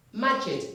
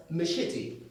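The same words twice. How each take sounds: First: Machete said as ma-JET with a hard j; wrong machete. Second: Machete said as muh-SHEE-tee with sh; right machete. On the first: Teacher shows students the common mistake with machete. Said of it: "It's not machete". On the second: Teacher gives students the correct machete, clearly. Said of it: "It's pronounced as machete". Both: Shown as a demonstration.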